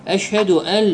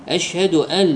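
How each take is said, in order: The two takes are said the same way.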